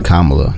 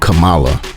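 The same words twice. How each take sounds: First: The name is pronounced the usual, respectful way. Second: The name is pronounced in a deliberately distorted way. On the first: The name is said with respect. The speaker calls it right. "I love hearing you say Kamala" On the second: The name is mispronounced on purpose to belittle. The speaker calls it wrong. "not Kamala, as our former president listen, says very intentionally"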